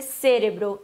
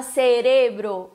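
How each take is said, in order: First: Cérebro stressed on the first syllable, CE-re-bro. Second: Cerebro slowly, as ce-RE-bro; stress on RE. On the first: Teacher showing the wrong form, stress on CE. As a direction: hit the opening CE of cérebro. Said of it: "não pode ser cérebro". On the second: Teacher giving the correct form, stress on RE. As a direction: stretch the second syllable of cerebro. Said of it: "se fala cerebro". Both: Shown as a demonstration.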